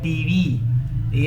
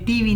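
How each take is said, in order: First: The stress and length fall on the second syllable. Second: The stress and length fall on the first syllable. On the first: The speaker calls it right. "लंबा जो होता है वी होता है" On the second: The speaker calls it wrong. "ये TV नहीं होता"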